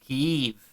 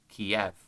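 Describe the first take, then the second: First: The name ends with a 'yiv' sound. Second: The name ends with a 'yev' sound. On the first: It is the Ukrainian form of the name. The speaker calls it right. "please pronounce it Kyiv" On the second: It is the Russian form of the name. The speaker calls it wrong. "be pronounced the Russian way"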